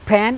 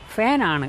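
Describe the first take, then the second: First: The word begins with an aspirated p sound. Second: The word begins with an f sound. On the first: The speaker calls it wrong. "ഫാൻ അല്ല" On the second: The speaker calls it right.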